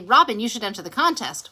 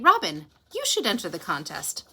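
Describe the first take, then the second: First: The name runs straight into the sentence. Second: There is a clear pause after the name. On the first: The speaker calls it wrong. "So we don't just say" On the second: The speaker calls it right. "We say"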